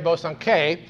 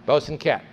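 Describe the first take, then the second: First: The name ends without a T sound. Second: The name ends with a hard T sound. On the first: This is the French way of saying the name. "any French scholar will tell you that should be pronounced Mary Bosanquet" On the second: This is the English way of saying the name. "the English have always pronounced it with the hard T at the end"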